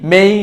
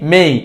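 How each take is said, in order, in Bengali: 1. স্বরধ্বনিটি 'e' থেকে 'ee'-তে গড়িয়ে যায়। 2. স্বরধ্বনিটি 'e' থেকে 'ee'-তে গড়িয়ে যায়।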